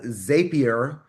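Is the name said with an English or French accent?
English. It is said with an English accent.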